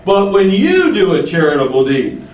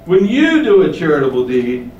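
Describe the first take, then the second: First: Said in the usual way. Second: Slight punch on "you" against the hypocrites; stress on you. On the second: Shown as a demonstration. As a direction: lean on the word "you", and only on "you". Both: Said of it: "The emphasis there is on the word".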